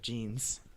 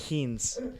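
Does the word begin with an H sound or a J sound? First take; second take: J sound; H sound. First: The word begins with a J sound. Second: The word begins with an H sound.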